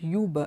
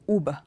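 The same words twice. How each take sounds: First: The word begins with a 'yoo' sound. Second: The word begins with an 'oo' sound. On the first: The speaker calls it wrong. "It's not Uber" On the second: The speaker calls it right. "it is Uber"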